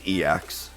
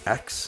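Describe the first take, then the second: First: It is said as two letters, E and X. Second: It is said as one word, like eks. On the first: This is the capital-letter version of the term. "which is pronounced E X" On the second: This is the lowercase version of the term. "is pronounced X"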